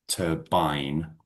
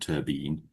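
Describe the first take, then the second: First: The last syllable has an 'eye' vowel. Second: The last syllable has a short 'ih' vowel. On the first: The speaker calls it right. "it's a hard I there" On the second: The speaker calls it wrong. "rather than"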